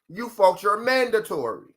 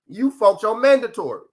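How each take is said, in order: First: It is said slowly and deliberately. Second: It is said at a normal, quicker pace.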